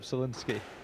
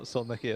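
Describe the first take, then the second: First: The surname is said as Solinski. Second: The surname is said as Solniki. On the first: The speaker calls it right. "is how we pronounce it" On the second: The speaker calls it wrong. "not Solniki as I was saying yesterday"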